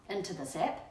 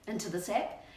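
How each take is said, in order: Both takes have the same delivery.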